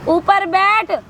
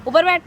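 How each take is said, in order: First: ऊपर बैठ repeated higher and sharper; firmer repeat. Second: Said in the usual way. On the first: Acted. Woman repeats ऊपर बैठ to the man, more forcefully.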